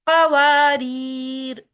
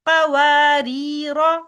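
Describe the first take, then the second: First: The word ends on a consonant, no vowel. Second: The word ends with a final vowel sound. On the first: The reading stops at this word. "हालत वक़्फ़ में पढ़ेंगे तब भी पढ़ेंगे कवारीर, साकिन कर लेंगे" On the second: The reading continues into the next words. "हालत वसल में पढ़ेंगे तब भी पढ़ेंगे कवारीरा"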